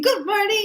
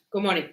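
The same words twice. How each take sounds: First: High-pitched cheery good morning; happy greeting. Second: Low, subdued imitation of a bad-mood greeting; gloomy greeting. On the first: Retold or imitated. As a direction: sing it out as a happy colleague. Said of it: "Like, he's happy". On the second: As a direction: say it low, with no cheer at all. Someone else arrives in bad mood.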